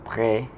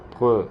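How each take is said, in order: First: The vowel is a closed accented e sound. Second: The vowel is said without the accented e sound. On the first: The speaker calls it right. "como el sonido es pré" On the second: The speaker calls it wrong. "Si no tuviera este acento se pronunciaría pre"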